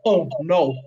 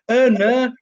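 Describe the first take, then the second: First: "Oh, no" with proper rounded "oh" vowels, Manc style; corrected pronunciation. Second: Hull "Uh, no", both vowels flattened to "er"; louder, higher mimicry of Hull vowels; imitated Hull accent. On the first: Shown as a demonstration. Mum correcting her son's Hull vowels, corrected pronunciation. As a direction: say "Oh, no" as the correct version. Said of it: "I've got more of a Manc accent". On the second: Mum quoting her son's slip, imitated Hull accent. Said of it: "Like, with the ers and the ner".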